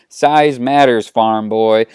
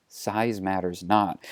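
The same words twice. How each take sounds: First: Slow, emphatic put-down; eye-rolling retort. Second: Slow, low, soft pronouncement; gentle words of wisdom, lowered and unhurried; solemn Jedi. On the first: Han rolls his eyes at Luke, dismissive and emphatic. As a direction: push back with weary scorn. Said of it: "Han rolls his eyes". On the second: Luke gently takes Han by the arm, solemn and soft. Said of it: "Luke approaches Han ... arm and says". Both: Acted.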